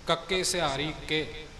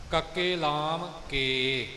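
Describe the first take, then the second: First: ਕੇ said short, like ਕਿ; sihari sound. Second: ਕੇ said with a long drawn e vowel; lam sound. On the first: Teacher contrasting ਕੇ with sihari and with lam. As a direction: clip ਕੇ to a short i vowel. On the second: Teacher contrasting ਕੇ with lam and with sihari. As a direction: stretch ਕੇ into a full long e. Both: Shown as a demonstration. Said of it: "ਕਿ, ਕੇ".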